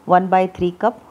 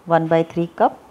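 Both takes have the same delivery.

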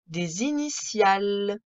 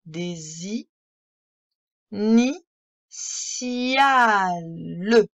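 First: Said in the usual way. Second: « Des i- ni- ciales » coupé net entre syllabes; décompose le mot; syllabe par syllabe. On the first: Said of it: "d'une traite". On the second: Shown as a demonstration. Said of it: "lire le mot syllabe par syllabe". (« initiales » syllabé)

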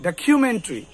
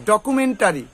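First: ডকুমেন্টারি as "da-KYU-men-tri"; aspirated "khyu" and a short "tri" in ডকুমেন্টারি; correct pronunciation. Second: ডকুমেন্টারি as "do-ku-men-ta-ri"; full "ta" in ডকুমেন্টারি; five plain syllables, "dokumentari", for ডকুমেন্টারি; common mispronunciation. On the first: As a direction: squeeze ডকুমেন্টারি to "dakhyumentri". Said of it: "উচ্চারণটা কি তাহলে হবে". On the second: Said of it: "আমরা উচ্চারণ করি". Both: Shown as a demonstration.

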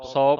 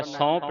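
First: ਸੌ with a clean oral vowel, loud; no nasal. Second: ਸੌਂਪ with a nasal vowel; nasalised misreading. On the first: Teacher shows the right reading, ਸੌ with un-nasalised vowel. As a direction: say ਸੌ firmly without nasalising it. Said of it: "ਸੌ ਪੜ੍ਹਨਾ". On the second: Teacher shows the mistake, ਸੌਂਪ with nasalised vowel. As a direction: put the bindi nasal into ਸੌਂਪ. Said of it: "ਸੌਂਪ ਨਹੀਂ ਪੜ੍ਹਨਾ". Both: Shown as a demonstration.

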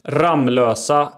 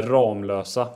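First: "Ramlösa" with a short A; variant pronunciation. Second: "Ramlösa" with a long A; variant pronunciation. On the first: Host offers rival pronunciations, short-A "Ramlösa". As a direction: say "Ramlösa" as RAMM-lösa. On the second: Host offers rival pronunciations, long-A "Ramlösa". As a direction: say "Ramlösa" as RAAM-lösa. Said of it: "Ramlösa eller Ramlösa?". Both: Shown as a demonstration.

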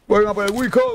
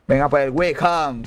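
First: High, urgent summons to come; high-pitched call. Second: Said in the usual way. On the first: Real, not acted.

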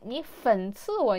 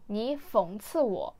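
First: 讽刺 slipped to fěncì, like 粉刺; mispronounced front nasal. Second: 讽刺 with back nasal -ng, fěngcì; intended pronunciation. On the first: Showing the slip that made a friend laugh, 讽刺 as fěncì. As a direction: say 讽刺 with -n in place of -ng. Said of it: "になっちゃいました". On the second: Student showing what she meant to tell a friend, 讽刺 as fěngcì. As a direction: say 讽刺 as fěngcì, clear -ng ending. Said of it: "友達にこう言いたかったんです". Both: Shown as a demonstration.

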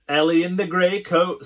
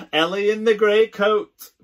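First: Teasing. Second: High, loud playground chant; sing-song teasing chant. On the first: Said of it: "someone says". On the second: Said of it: "we all chant". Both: Acted.

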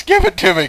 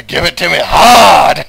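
First: Loud, higher hammed-up plea; first of two rising mock pleas; mock passionate demand. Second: Loud, high, hammed-up cry leaning on hard; second take, louder and more over the top; louder mock passionate demand. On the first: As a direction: beg it theatrically. Mock ecstasy, first take. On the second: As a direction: push the plea to its peak. Mock ecstasy, escalated take.

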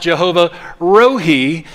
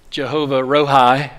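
First: Rohi said as ro-hee, ending like he; Jehovah Rohi with the last syllable rhyming with see; Hebrew pronunciation. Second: Jehovah Rohi with the last syllable rhyming with pie; Southern pronunciation. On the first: Pastor giving the proper Hebrew sound, Rohi ending in hee. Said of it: "but it's pronounced". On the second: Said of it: "from the South we could say". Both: Shown as a demonstration.

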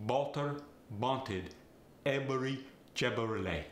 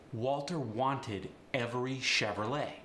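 First: Walter wanted every Chevrolet said Balter banted ebery Chebrolet; Farsi accent. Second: Said in the usual way. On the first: Shown as a demonstration. Coach demonstrating a Farsi accent, Balter banted ebery Chebrolet. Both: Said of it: "The W and the V get the B sound".

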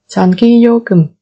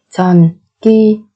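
First: Said in the usual way. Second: Syllable by syllable. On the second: Shown as a demonstration. Teacher models word syllable by syllable.

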